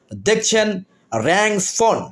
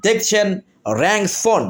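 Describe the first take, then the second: No difference in how they are said.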